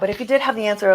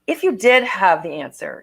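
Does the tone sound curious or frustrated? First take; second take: frustrated; curious. First: It sounds rushed and frustrated. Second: It sounds slow, calm and curious.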